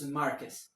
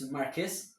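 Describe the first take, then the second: First: The stress falls where Spanish speakers put it. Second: The stress falls where English speakers put it. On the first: "but in Spanish, it's Marquez" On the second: "In English, for some reason, it changed the stress, so it's Marquez"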